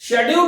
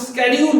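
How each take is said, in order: First: The word begins with an 'sh' sound. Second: The word begins with an 'sk' sound. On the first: The speaker calls it wrong. "शेड्यूल नहीं बोल करके" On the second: The speaker calls it right. "आपको स्केड्यूल बोलना है"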